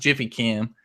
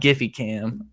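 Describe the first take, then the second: First: The name begins with a soft J sound. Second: The name begins with a hard G sound. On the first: The speaker calls it right. "it is pronounced Jiffy Cam" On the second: The speaker calls it wrong. "and not Giphy Cam"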